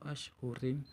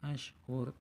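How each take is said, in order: First: The word ends with a final im. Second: The word ends on the consonant r. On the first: The speaker calls it wrong. "atau ashhurim" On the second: The speaker calls it right.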